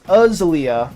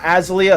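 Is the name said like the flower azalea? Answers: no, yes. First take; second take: yes; no. First: It is said like the flower. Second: It is not said like the flower. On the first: The speaker calls it right. "it's Azalea" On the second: The speaker calls it wrong. "Not Azalea"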